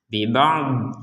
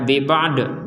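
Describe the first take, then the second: First: The final consonant is held without a bounce. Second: The final consonant is released with a bounce. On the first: The speaker calls it right. "sisi kiri lidah kita atau sisi kanan atau dua-duanya itu menyentuh kepada gigi bagian atas" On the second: The speaker calls it wrong. "Jangan sampai dibaca bibad, bibad, nah, bukan bukan kol-kolah ini"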